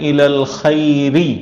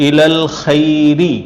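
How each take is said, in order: No difference in how they are said.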